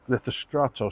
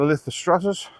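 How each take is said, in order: First: The name ends with a vowel sound. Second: The name ends with an s sound. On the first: The speaker calls it right. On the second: The speaker calls it wrong. "I keep saying that wrong"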